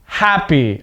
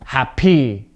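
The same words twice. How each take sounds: First: HAPpy, "happy" with a strong start; "happy" front-stressed, ending unstressed; stress on first syllable. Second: HapPY, "happy" with the end punched; "happy" with low first syllable, raised PY; stress on second syllable. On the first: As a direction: punch the opening syllable of "happy". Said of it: "stress at the beginning of the word". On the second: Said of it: "voice goes up at the second part". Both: Shown as a demonstration.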